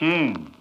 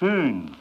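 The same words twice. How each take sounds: First: The sch sound is made with spread lips. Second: The sch sound is made with rounded lips. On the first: The speaker calls it wrong. "Nicht mit zurückgenommenen Lippen" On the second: The speaker calls it right. "Bei SCH werden die Lippen vorgestülpt"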